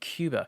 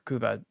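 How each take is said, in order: First: Cuba is said with the usual English pronunciation. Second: Cuba is said with the local Spanish pronunciation. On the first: The speaker calls it wrong. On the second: The speaker calls it right.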